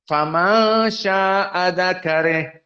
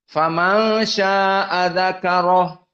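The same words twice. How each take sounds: First: The ra is light, its vowel leaning toward e. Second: The ra is heavy, with an open a vowel. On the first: The meaning of the ending changes. The speaker calls it wrong. "Tidak boleh ... akan mengganti makna" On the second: The ending means him. The speaker calls it right. "harus dalam keadaan tafkhim ra"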